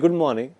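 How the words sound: It is said in a happy tone. "Tonality change हो जाता है इनटू हैप्पी"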